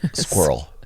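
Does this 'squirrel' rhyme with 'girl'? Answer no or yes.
yes. The word rhymes exactly with girl. It is the lazy Canadian way. The speaker calls it wrong. "we lazily pronounce it"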